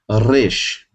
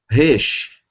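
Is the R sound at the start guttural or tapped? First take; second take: tapped; guttural. First: The R is a light tap at the front. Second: The R is a guttural sound in the throat. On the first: This is how it is said outside Israel. "Fora de Israel" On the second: This is how it is said in Israel. "Em Israel, Como em carro"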